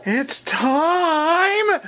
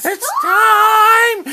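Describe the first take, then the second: First: Wake-up yell. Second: Very high, very loud shout; full shout. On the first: Waking daughter, rising yell. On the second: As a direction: belt it out to wake her. Waking daughter, bigger yell. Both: Real, not acted.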